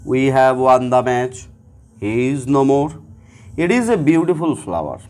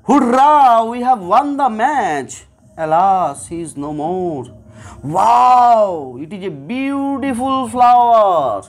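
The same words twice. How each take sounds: First: Said in the usual way. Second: Each interjection voiced with its feeling, joy, grief, wonder; teacher acting out hurrah, alas and wow with feeling; emotional exclamations. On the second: Shown as a demonstration. Teacher contrasting flat sentences with emotional ones, voiced exclamations. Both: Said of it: "এই দুটো বাক্যের intonation বা আমার যে টোনটা".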